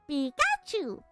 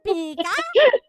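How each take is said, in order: First: The Pikachu voice stays in a lower register. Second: The Pikachu voice reaches a high register.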